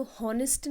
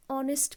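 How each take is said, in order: First: हॉनेस्ट with a voiced H at the start; wrong H sound. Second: ऑनेस्ट starting straight on the vowel; silent H. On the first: Teacher to students, demoing the wrong H in हॉनेस्ट. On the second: Teacher to students, showing the right silent-H ऑनेस्ट. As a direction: say ऑनेस्ट with no H at all. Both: Shown as a demonstration. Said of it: "H is silent".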